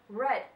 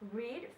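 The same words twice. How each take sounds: First: It has the past-tense pronunciation of the word. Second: It has the present-tense pronunciation of the word. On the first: It is the past tense form. "read when it is in past tense form" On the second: It is the base or present tense form. "Read for its root word or in simple simple present tense"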